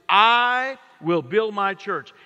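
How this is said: The word 'I' is stressed. He himself chose the church, so it is privileged. "perhaps he put the inflection on that first word, that perpendicular pronoun, I"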